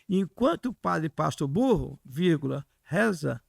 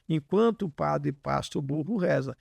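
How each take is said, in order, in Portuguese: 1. Há uma pausa depois da palavra burro. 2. Há uma pausa depois da palavra pasta. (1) "Mas quando você diz assim" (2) "Eu ponho a vírgula no pasta"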